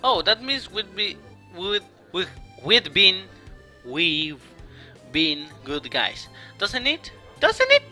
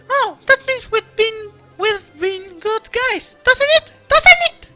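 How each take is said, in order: First: It is read in his natural voice. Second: It is read in a put-on character voice.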